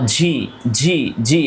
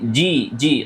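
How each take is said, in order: First: The consonant releases a puff of air. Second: The consonant releases no puff of air. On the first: The speaker calls it wrong. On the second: The speaker calls it right.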